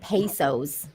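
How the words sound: It is said with an American English accent. The speaker calls it wrong. "you said it like the it's such a gringo way"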